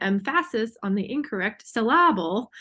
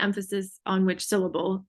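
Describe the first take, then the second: First: EMPHASIS stressed jokily on its second syllable, em-FASS-is; misplaced syllable stress. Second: Said in the usual way. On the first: Shown as a demonstration. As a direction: stress the middle of SYLLABLE, sil-LAB-ul, as in EMPHASIS. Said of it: "placing the emphasis on the incorrect syllable". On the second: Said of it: "and the classic joke".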